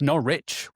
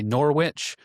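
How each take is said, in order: First: It is said locally, rhyming with porridge. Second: It is said with an American pronunciation. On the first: The speaker calls it right. "I pronounce it like a local, that it rhymes with porridge" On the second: The speaker calls it wrong. "you Americans always say Norwich"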